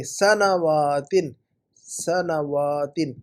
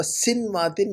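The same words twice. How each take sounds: First: سنواتن drawn out as "sa-na-waa-tin"; very slow سنواتن, opening "sa-na"; correct pronunciation. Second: سنواتن as "sin-waa-tin", first syllable closed; mispronunciation. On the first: Teacher models the word for student, correct pronunciation. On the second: Teacher rejects student's misreading, mispronunciation. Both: Shown as a demonstration. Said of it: "سنواتن نہیں".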